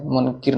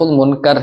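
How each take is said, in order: First: منکر said as munkir, with an i before the r; the mistaken munkir form of منکر; منکر pronounced munkir, the wrong way; wrong pronunciation. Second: منکر said as munkar, with an open a before the r; منکر pronounced munkar, the right way; correct pronunciation. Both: Shown as a demonstration. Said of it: "نطق ہے".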